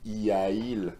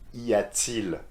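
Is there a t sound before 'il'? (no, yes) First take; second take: no; yes. First: The vowels meet directly with no t sound. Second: A t sound links the two vowels. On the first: The speaker calls it wrong. "I need to make an effort here. ... it doesn't sound quite right" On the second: The speaker calls it right. "add a T in between and everything's perfect"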